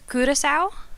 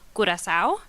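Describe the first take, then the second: First: The name is said with a Dutch pronunciation. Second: The name is said with a Spanish pronunciation. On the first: "in Dutch" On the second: "In Spanish"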